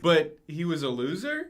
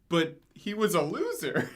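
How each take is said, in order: First: The voice rises at the end. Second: The voice falls at the end.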